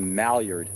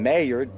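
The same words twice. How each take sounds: First: The double L is said as an L sound. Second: The double L is said as a Y sound. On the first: "I keep wanting to say Maillard for some reason" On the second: "pronouncing it like it's Spanish. The two L's are a Y sound"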